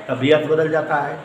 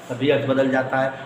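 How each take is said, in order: Both takes have the same delivery.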